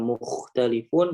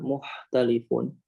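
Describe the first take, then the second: First: The second consonant is a rough kh. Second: The second consonant is a soft h. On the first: The speaker calls it right. "harusnya mukhtalifun" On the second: The speaker calls it wrong. "malah muhtalifun"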